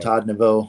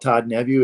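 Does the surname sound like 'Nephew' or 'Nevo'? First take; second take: Nevo; Nephew. First: The surname is said like 'Nevo'. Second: The surname is said like 'Nephew'. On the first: This is the form the phone understands. "I have to actually have to pronounce it correctly, and I have to say Nevo" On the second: This is how the family says it. "If I say call Todd Nephew, it's calling John Smith"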